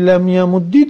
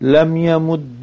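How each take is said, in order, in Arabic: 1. ينتهي الفعل بحركة الكسرة. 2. ينتهي الفعل بحركة الفتحة. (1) "والكسر بابوچي لم يمد درستا، لأنه الأصل في حركة الساكن" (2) "ودي الفتح، الفتح للخفة"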